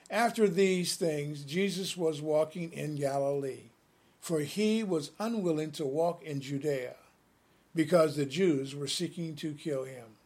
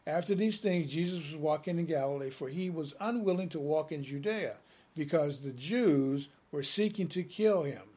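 First: It is read at a slower pace. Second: It is read at a faster pace.

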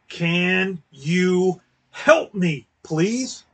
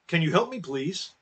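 First: It is asked in a rude, demanding tone. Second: It is asked in a polite, pleasant tone.

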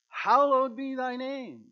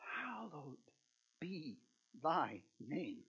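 First: It is said as a bold, declaring proclamation. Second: It is said as an earnest, pleading request. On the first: It announces praise as a statement. The speaker calls it wrong. "this is not an acclamation. This is not" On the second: It asks from the heart for the name to be honored. The speaker calls it right. "This is a petition"

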